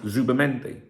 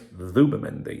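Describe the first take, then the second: First: The first sound is a buzzing z. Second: The first sound is a soft th. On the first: "some people pronounce Zubamendi, right? You know, like in English" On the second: "here where I am, it's Zubamendi"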